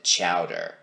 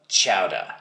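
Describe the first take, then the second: First: It is said without a New England accent. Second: It is said with a New England accent. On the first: The speaker calls it wrong. "Here in New England, we never pronounce it chowder" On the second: The speaker calls it right. "If you want the authentic stuff, then it's definitely chowder"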